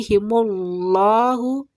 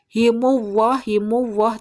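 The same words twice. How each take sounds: First: Himullahu, firm held double l; tongue tip fully sounds himullahu's l; clear l in himullahu. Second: Himuwah, l slurred into w; himullah without l. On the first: Teacher corrects the reading, clear l in himullahu. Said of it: "Ujung lidah kita harus benar-benar menyentuh". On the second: Teacher shows the mistake, w replacing l in himullah. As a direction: drop the tongue-tip l from himullah. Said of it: "Jangan dibaca". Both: Shown as a demonstration.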